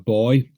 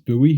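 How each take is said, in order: First: It is said the British way, like 'boy'. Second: It is said the American way, like 'boo-ee'.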